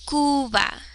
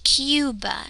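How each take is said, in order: First: The first vowel is a pure u without glide. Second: The first vowel has a y glide before it. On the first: The speaker calls it right. "But in Spanish, remember, sticking to the five, U" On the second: The speaker calls it wrong. "how we pronounce the word Cuba in English"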